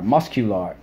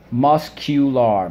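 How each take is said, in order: First: Said in the usual way. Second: Muscular. stretched slowly and louder; slow drilled word. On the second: Shown as a demonstration. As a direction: drag out Muscular. syllable by syllable. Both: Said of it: "let's go".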